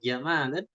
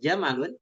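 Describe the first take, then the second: First: The middle vowel is drawn out long. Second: All the vowels are said short. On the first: It means beauty. "ini artinya bagus atau indah" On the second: It means a camel. "pendek semua ini unta"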